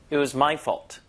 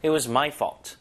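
First: "my" pushed, emphasising ownership; stress on my. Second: "fault" given light stress. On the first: Teacher stresses "my" to show it's his own fault. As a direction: lean on "my" to own the blame. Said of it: "소유격에 강세를 주기도". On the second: Teacher shows the plain version, a light stress on "fault". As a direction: tap "fault" a little. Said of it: "fault의 강세를 살짝 줘도". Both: Shown as a demonstration.

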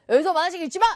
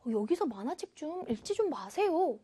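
First: Loud, quick scolding order; blunt command. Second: Softer, quick and gentle appeal; soft polite request. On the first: Teacher showing the order without please, loud and blunt. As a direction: forbid it firmly. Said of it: "이게 아니라". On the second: Teacher showing how please softens it, soft and polite. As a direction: ask kindly, with a hushed voice. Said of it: "부드러운 느낌이 되죠". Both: Shown as a demonstration.

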